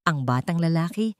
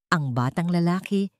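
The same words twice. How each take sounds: The two takes are said the same way.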